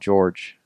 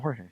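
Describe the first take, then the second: First: The name is said the English way, like George. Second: The name is said the Spanish way, like Hor-heh. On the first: The speaker calls it wrong. "calling Jorge Masvidal George" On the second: The speaker calls it right. "Just call him Jorge"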